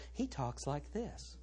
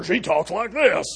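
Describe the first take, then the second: First: Hushed, slow, wimpy preacher voice; mock soft-spoken preacher. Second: Loud, forceful preacher voice; mock woman preacher. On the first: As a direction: imitate a meek TV preacher, very softly. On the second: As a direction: imitate a brash TV preacher.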